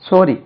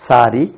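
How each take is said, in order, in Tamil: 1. முதல் உயிர் ஒலி வட்டமான 'oh' ஒலி. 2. முதல் உயிர் ஒலி திறந்த 'ah' ஒலி. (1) "மூணாவது ஓ சொல்லுவேன்" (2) "முதல்ல இதை சொல்லுவேன்"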